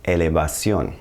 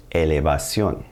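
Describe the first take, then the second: First: Elevación with Spanish e vowels, stress on the final ó; Spanish pronunciation. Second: Elevación repeated, clear Spanish vowels, stress on ó; Spanish pronunciation. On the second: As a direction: say elevación again for students to copy. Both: Shown as a demonstration. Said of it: "Elevation becomes".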